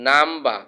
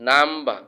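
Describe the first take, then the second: Both takes have the same delivery.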